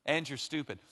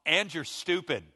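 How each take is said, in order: First: Said in the usual way. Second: Mock insult. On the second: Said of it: "you've just gone".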